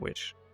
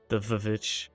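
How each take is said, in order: First: The word has one syllable, starting with w. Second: The word has two syllables, starting with v. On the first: "or you just pronounce it witch?" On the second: "I like pronouncing it as Vivitch"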